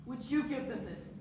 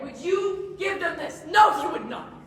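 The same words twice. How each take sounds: First: Quiet question. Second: Loud and higher, answering himself; shouted challenge. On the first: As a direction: ask it almost under the breath. First asking, quiet before outburst. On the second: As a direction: hurl the question at her. Repeated question rising to shout. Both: Acted.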